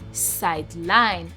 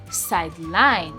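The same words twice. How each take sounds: First: The stress is on the second syllable. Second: The stress is on the second syllable.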